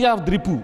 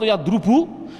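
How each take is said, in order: First: The vowel before the last syllable is i. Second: The vowel before the last syllable is u. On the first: The speaker calls it right. "mudhari'nya saya mengikuti yadribu" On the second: The speaker calls it wrong. "Jawabnya tidak boleh"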